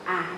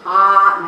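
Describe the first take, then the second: First: The vowel is said with the mouth moderately open. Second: The vowel is said with the mouth opened extremely wide. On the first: The speaker calls it right. "tapi ah cukup dua jari" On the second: The speaker calls it wrong. "bukan ah, nah nggak begitu"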